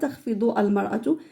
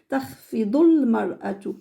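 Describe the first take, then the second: First: The article is said as a separate syllable. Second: The article is linked onto the previous word. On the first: The speaker calls it wrong. "Je dis pas" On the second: The speaker calls it right.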